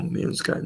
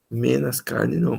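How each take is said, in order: First: "menos" said properly as menos; the correct "menos" said softly; correct pronunciation. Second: "Menos" said as menas, the wrong form; mock error, "Menos" pronounced menas; wrong pronunciation. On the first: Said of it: "Menos carne não". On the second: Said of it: "menos é desagradável de ouvir". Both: Shown as a demonstration.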